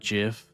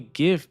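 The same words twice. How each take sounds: First: It starts with a soft J-like sound. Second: It starts with a hard G sound. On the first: This is how the format's creator says it. The speaker calls it wrong. "the creator of like the GIF file pronounces it GIF" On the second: The G stands for graphical. The speaker calls it right. "it should be GIF because it's doesn't it stand for graphical?"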